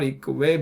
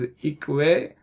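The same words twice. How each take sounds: First: The middle consonant is single. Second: The middle consonant is doubled. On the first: The speaker calls it wrong. "It's not Ikwe" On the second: The speaker calls it right. "It is Ikwe. ... because it's a Dagesh"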